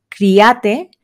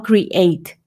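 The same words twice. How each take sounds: First: Criate said with a final e sounded; wrong criate. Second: Create drawn out slowly, krih-AYT; slow correct create. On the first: Teacher warns students off the criate mistake. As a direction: pronounce criate as three Spanish syllables. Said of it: "no diríamos tampoco". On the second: Teacher models the right create for students. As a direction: stretch create out, the final e silent. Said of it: "sino create". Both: Shown as a demonstration.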